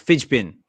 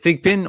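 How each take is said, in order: First: The first word ends in a soft j sound. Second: The first word ends in a hard g sound. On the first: "I reckon fidge pin sounds better" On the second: "do you think it should be fig?"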